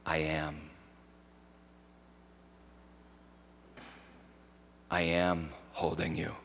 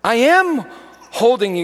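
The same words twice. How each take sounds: First: Gentle, near-murmured divine reply; hushed words of Jesus. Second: Much higher and louder, ringing out; fervent declaration from the pulpit; proclaimed words of Jesus. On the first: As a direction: hush it like a voice heard in prayer. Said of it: "I just heard Jesus say". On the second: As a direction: proclaim it to the whole room. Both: Retold or imitated.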